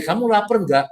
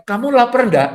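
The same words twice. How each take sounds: First: Straight, matter-of-fact ask; just ask if they're hungry, no hidden meaning; a guy simply asking a friend; man's plain question. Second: Higher, a bit louder, coy ask; a lightly voiced woman fishing for a dinner invite; woman's hinting question. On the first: Retold or imitated. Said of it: "Kalau cowok bilang". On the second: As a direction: ask while really hinting you're hungry. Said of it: "Tapi kalau wanita bilang".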